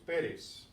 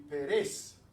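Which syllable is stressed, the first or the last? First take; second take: first; last. First: The stress is on the first syllable. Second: The stress is on the last syllable. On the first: The speaker calls it right. "so it's Pérez" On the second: The speaker calls it wrong. "If this didn't have the accent, the pronunciation would be"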